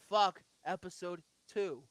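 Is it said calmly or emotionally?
calmly. It is said with less emotion.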